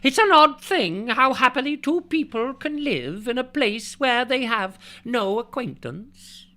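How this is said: It is read in a Scottish accent.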